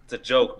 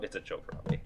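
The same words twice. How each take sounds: First: Said in the usual way. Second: Soft breathy whisper. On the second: Real, not acted. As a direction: whisper it under your breath.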